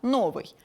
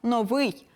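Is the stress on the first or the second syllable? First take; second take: first; second. First: The stress is on the first syllable. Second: The stress is on the second syllable. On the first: The speaker calls it wrong. "а не так, як у росіян" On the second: The speaker calls it right. "наголос падає на другий склад"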